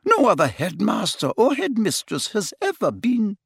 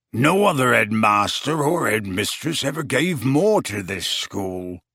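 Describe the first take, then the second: First: Said in the usual way. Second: Growled. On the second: A narrator's reading. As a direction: growl it back in grief. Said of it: "growled Hagrid".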